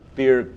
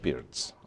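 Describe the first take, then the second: First: The name ends with a plain 't' sound. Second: The name ends with a 'ts' sound. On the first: The speaker calls it wrong. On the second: The speaker calls it right.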